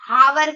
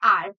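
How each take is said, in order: First: The word begins with a spoken h and 'a'. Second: The word begins with a vowel, no h sound. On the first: The speaker calls it wrong. "बहुत सारे लोग इसको हावर कहते हैं" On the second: The speaker calls it right. "इसकी जो सही pronunciation है वो है आर"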